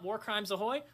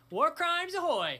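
First: Said in the usual way. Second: Much higher, louder, slow bellowed catchphrase; loud shout. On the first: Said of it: "Thank you, [name]". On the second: Shown as a demonstration. Shouting the channel catchphrase, a loud slow bellow. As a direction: belt it out like a battle cry. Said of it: "I thought that was gonna hit my computer".

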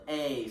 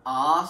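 First: A said as ay, like its name; long A sound. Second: A said as an open ah; ah sound. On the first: Teacher showing the long ay sound of the letter A. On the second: Teacher showing the ah sound of the letter A. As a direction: say A as ah, as in father. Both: Shown as a demonstration. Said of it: "A can either make".

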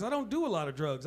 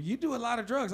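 First: Firm denial with the stress falling on "do" in "I don't do a lot of drugs.". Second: Mock accusing, leaning on "do" in "You do a lot of drugs."; accusing quote. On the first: Shown as a demonstration. Comic answering the drug accusation, stress on "do". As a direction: push back, weighting "do". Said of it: "There's a difference". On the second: People who hear his jokes accuse him, stress on "do". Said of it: "they always give".

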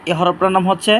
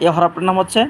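No difference in how they are said.

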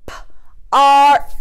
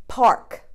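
First: P-ark with a stretched break before ark; split into P and ark. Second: Said in the usual way. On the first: Shown as a demonstration. Teacher splitting a word for pupils, stretched. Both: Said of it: "what about this one".

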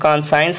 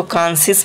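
First: "कॉन्साइंस" with a "sigh-ens" ending; variant pronunciation. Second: "कॉन्सियस" ending in a short "see-us" sound; variant pronunciation. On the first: Teacher showing the other reading, "कॉन्साइंस" pronounced kon-sigh-ens. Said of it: "कुछ लोग कॉन्साइंस पढ़ते हैं". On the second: Teacher showing how some read the word, "कॉन्सियस" pronounced kon-see-us. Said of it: "कुछ लोग इसको कॉन्सियस पढ़ते हैं". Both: Shown as a demonstration.

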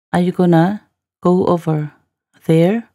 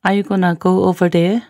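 First: Teacher's careful phrase-by-phrase repeat. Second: Said in the usual way. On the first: Shown as a demonstration. Teacher repeats line in slow chunks.

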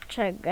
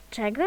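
First: Czego? with the pitch falling flat at the end; falling question. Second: Czego? asked with the pitch rising at the end; rising question. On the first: Mocking Cleverbot with a flat falling question. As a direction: drop the end of Czego? like a statement. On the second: Reading Cleverbot's reply aloud as a rising question. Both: Shown as a demonstration. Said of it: "będziemy przedrzeźniać".

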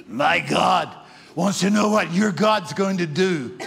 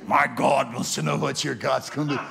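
First: Loud, eerie demon-possessed voice; spooky voice. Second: A hint of an eerie possessed voice, lightly done; spooky voice. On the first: Retold or imitated. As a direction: boom it out like a possessed man. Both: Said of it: "here's what he said in a spooky voice".

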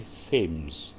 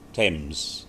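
First: "Thames" said slowly with a th sound, like "thems"; slow "Thames" with the th voiced; th pronounced. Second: "Thames" said as "tems", th silent; "Thames" without the th sound. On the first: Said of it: "ada juga accent yang bunyinya dibaca". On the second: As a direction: say "Thames" with a plain t. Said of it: "sungai di Inggris". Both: Shown as a demonstration.

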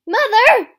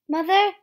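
First: Screamed far higher and much louder; desperate scream. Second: Loud, higher call for mother. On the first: A child screaming desperately for his mother. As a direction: scream for her with everything. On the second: A child calling out for his mother, loud. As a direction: call out across the distance. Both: Acted.

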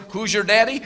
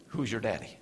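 First: Louder, rising question; a mock challenge from a bystander; bright challenge. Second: Low, soft haunting question; a muted memory of taunts; hushed echo. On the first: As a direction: ask it boldly. Question asked of him later. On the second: Acted. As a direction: let it hang quietly.

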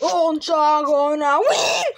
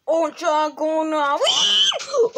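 First: Said in the usual way. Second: Breathy, unvoiced, slow stage whisper; whispered shout. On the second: Child taunting the losing toys, slow whispered shout. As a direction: hiss it like a secret taunt. Repeated line, different takes.

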